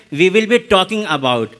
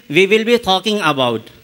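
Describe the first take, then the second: First: Everyday Indian-accented English, as a comparison. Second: Lightly imitated Australian accent. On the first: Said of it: "we Indians say in our accent". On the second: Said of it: "But he is saying". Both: Shown as a demonstration.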